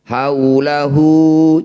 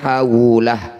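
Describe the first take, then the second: First: The word ends with a short final vowel. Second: The word ends on a bare consonant. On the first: The reading continues without stopping. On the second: The reading stops at this word.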